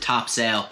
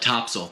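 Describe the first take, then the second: First: It is the common non-local pronunciation. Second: It is the pronunciation used by locals. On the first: This is how many outsiders say it. "a lot of people pronounce it Topsail" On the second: This is how residents say it. "Locals call it Topsail"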